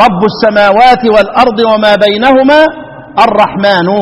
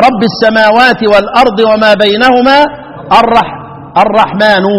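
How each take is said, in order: First: "رب السماوات" with rabbu ending in -u; recited with raf'. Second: "رب السماوات" with rabbi ending in -i; recited with khafd. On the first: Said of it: "الباقي أهل سما". (تلاوة "ربُّ" بالضم) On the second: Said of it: "يبقى". (تلاوة "ربِّ" بالكسر) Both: Shown as a demonstration.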